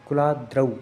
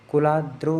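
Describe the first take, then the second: First: The final vowel is an 'au' diphthong. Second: The final vowel is not an 'au' diphthong. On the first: The speaker calls it right. "जहाँ औ की मात्रा हो वहाँ औ की करें" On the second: The speaker calls it wrong. "कुलाद्रौ नहीं है"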